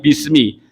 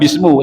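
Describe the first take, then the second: First: The word ends with an i vowel. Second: The word ends with an u vowel. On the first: The speaker calls it right. "tapi bismi" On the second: The speaker calls it wrong. "enggak bismu"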